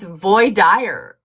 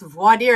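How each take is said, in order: First: It is said in a thick Southern accent. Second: It is said without a Southern accent.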